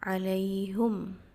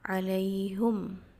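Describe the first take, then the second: First: The vowel after the h is u. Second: The vowel after the h is u.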